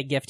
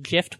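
First: Said in the usual way. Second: "gift" pronounced with a J sound, "jift"; soft G. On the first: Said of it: "We, we say gift here". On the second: Shown as a demonstration. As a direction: start "gift" like "jiffy". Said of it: "Some people call it, pronounce it".

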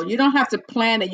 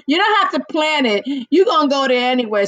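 First: Said in the usual way. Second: Playful teasing, quick; teasing laugh. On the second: Real, not acted. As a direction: rib him with a grin. Repeats tease laughing.

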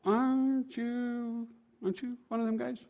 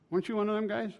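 First: Put-on second servant girl. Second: Lightly voiced servant girl, higher and softer; a soft, pitched-up question, lightly acted. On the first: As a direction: stretch the first question, high and soft. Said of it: "a second servant girl says". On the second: Servant girl questioning Peter, lightly voiced curious asking. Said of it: "There's a servant girl comes up".

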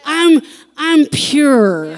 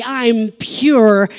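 First: I'm, I'm pure, slow with I'm drawn out and loud; stress on I'm. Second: Said in the usual way. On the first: Shown as a demonstration. Pastor showing the congregation the emphasis, slow and stressed. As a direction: split I'm off from pure, deliberately. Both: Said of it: "where you put the emphasis on which syllable".

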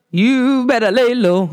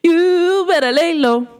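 First: Lightly put-on diva impression, slow; a hint of a singer's slow drawl. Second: High, slow diva impression; high drawn-out celebrity impression. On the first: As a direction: draw out the words slowly in imitation. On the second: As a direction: stretch it out high, imitating the singer. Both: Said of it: "In my [name] voice".

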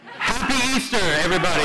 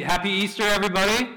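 First: High, loud cheer to the whole room; big booming holiday hello, pitched up; rousing Easter greeting. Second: Said in the usual way. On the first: Real, not acted. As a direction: shout it to rally a sleepy crowd. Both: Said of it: "this is like an every Sunday greeting".

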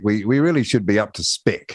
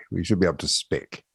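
First: Said in the usual way. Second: Muttered repeat to himself; quiet aside. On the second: Real, not acted. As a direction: say it again softly, half to yourself.

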